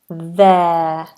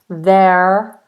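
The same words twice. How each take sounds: First: The final R is silent with no curled tongue. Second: The final R is sounded with a curled tongue. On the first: The speaker calls it right. "but the R must be silent. It must be there" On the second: The speaker calls it wrong. "We can't say there, there. You see my tongue curls"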